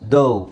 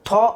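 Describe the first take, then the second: First: It is said with a long 'o' vowel. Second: It is said with a short 'a' vowel. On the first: The speaker calls it right. "ಅದನ್ನು ದೌ ಅಂತ ಹೇಳಬೇಕು" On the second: The speaker calls it wrong. "ಇಲ್ಲಿ ನಾವು ಥಾ ಅಂತ ಹೇಳ್ತೀವಾ? ಇಲ್ಲ"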